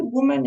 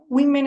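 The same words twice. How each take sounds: First: "woman" said WUU-men; rounded oo in the first syllable of "woman"; singular pronunciation. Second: "Women" said WIH-men; short i in the first syllable of "Women"; plural pronunciation. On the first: Teacher labelling the singular for a student, "woman" as WUU-men. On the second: Teacher labelling the plural for a student, "Women" as WIH-men. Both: Shown as a demonstration. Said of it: "lo que cambia en realidad es la O".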